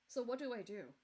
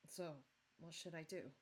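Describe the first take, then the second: First: It is said with more energy. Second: It is said flatly with no energy.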